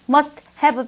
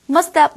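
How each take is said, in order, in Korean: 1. 두 단어 모두 완전하고 분명하게 발음됩니다. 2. 두 단어가 줄어들어 서로 붙어서 발음됩니다. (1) "분명하게 얘기를" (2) "이렇게 줄이는 경우가 되게 많아요"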